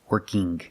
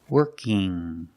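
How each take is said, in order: First: It ends with an audible hard g. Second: It ends in a nasal ng sound. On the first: The speaker calls it wrong. "But I cannot say working, This is not correct" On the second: The speaker calls it right. "I make the sound in my nose"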